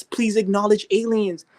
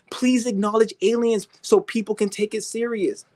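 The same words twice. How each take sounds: First: High, slow whiny plea; mock begging. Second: High whiny begging voice; mock begging. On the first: Mocking believers begging the government, whiny plea. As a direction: beg like a pathetic whiner. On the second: Mocking believers begging the government, high whine. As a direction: plead in a pathetic, whiny way. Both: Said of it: "sound like some bitches begging".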